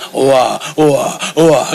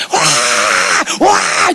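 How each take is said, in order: First: Low, short wah-wah bursts; mock low-pitched crying, evenly repeated; imitated baby cry. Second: Mock shrieking cry, long and drawn out; imitated screaming wail. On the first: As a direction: cry in small low wahs like a father. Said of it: "anak saya masih kayak bapaknya". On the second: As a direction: wail "waaah" like a mother yelling. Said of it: "seperti mamanya kalau udah teriak begitu".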